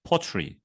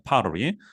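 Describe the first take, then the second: First: It is said with a British accent. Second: It is said with an American accent. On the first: "영국식으로 읽으면은 pottery" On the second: "미국 발음 읽을 때 도자기는 pottery라고 읽게 됩니다"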